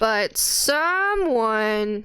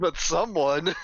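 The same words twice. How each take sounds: First: Stretched out slowly, pointed; slow accusing drawl. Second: Amused and teasing with a laugh. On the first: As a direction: draw out the words to blame. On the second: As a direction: laugh through the words. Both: Real, not acted.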